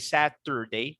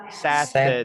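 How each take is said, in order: First: The middle syllable is a full, clear 'tur'. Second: The middle syllable is short and reduced. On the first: The speaker calls it wrong. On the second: The speaker calls it right.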